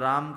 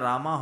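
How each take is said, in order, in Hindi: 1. शब्द का अंत व्यंजन m पर होता है। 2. शब्द के अंत में एक अतिरिक्त a स्वर जुड़ा है।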